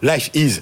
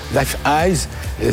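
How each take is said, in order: First: The second word sounds like 'is'. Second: The second word sounds like 'eyes'. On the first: The speaker calls it right. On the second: The speaker calls it wrong.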